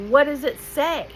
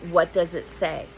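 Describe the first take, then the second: First: High, pressing question; asked urgently. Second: Said in the usual way. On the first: Retold or imitated. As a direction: demand the answer, pitched up high. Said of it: "and I'm asked".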